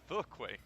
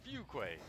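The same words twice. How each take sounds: First: The first syllable sounds like fuh. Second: The first syllable sounds like few. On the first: The speaker calls it wrong. "It's not Fuquay" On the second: The speaker calls it right. "few instead of fuh"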